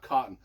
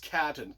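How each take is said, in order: First: The first vowel sounds like the one in 'cot'. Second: The first vowel sounds like the one in 'cat'. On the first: The speaker calls it wrong. "It's not Cotton" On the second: The speaker calls it right. "The last name is Catton"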